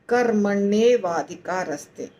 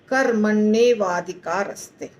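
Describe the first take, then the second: First: The four words are fused into one word. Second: The four words are fused into one word.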